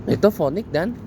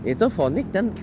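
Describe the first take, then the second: The two takes are said the same way.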